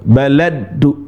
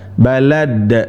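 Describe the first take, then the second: First: The word ends with an added u vowel. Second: The word ends on a bare stopped d. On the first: The speaker calls it wrong. "Bukan baladu, baladu, bukan" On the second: The speaker calls it right. "Da, da, balad. Nah, gitu"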